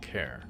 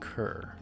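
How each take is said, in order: First: The word rhymes with 'hair'. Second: The word rhymes with 'her'. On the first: "I'm saying care" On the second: "the way they pronounce it, it sounds like cur"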